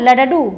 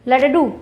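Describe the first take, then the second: Both takes have the same delivery.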